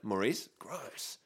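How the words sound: The voice rises on Maurice, then pauses. It sounds like a question followed by disgust. The speaker calls it wrong. "If you say, like"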